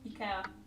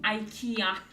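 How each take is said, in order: First: Ikea is said with a Swedish pronunciation. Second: Ikea is said with an English pronunciation.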